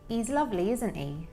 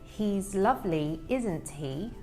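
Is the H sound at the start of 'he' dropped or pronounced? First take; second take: dropped; pronounced. First: The H sounds at word starts are dropped. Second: The H sounds at word starts are pronounced. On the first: "he doesn't say that first H sound" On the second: "rather than saying"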